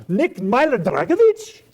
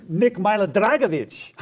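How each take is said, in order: First: High, slow, rising question; incredulous. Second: Raised, on the edge of laughter; amused. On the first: Artist learning Nick is a real person, incredulous. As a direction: draw the name out in loud disbelief. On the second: Artist remembering a crazy name, amused. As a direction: announce the name gleefully, breaking into a laugh. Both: Acted.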